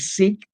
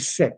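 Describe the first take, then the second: First: The vowel is long, as in 'seek'. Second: The vowel is short, as in 'sick'. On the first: The speaker calls it wrong. "I don't say Sikh" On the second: The speaker calls it right. "I say sick"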